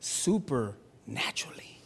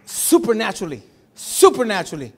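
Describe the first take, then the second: First: Slow, hushed whisper of supernaturally. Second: Loud, ringing repeat of Supernaturally; proclaimed. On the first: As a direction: breathe Supernaturally out as a secret. Awed single word after pause. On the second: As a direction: declare Supernaturally to the room, louder. Repeated word proclaimed loudly. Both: Real, not acted.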